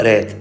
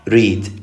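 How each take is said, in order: First: ريد as "red", with an open "eh"; short open e. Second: ريد as "reed", with a long "ee". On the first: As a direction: model ريد with the single-e sound "eh". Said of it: "كانت تقرأ ريد". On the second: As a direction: model ريد with the double-e sound "ee". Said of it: "راح يلفظ إي". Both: Shown as a demonstration.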